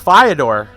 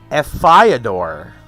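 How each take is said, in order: First: The F blends into the first syllable. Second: The F is said as a separate syllable. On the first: "I would assume it's Fyodor" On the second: "there was a separate a- emphasis on F as its own syllable"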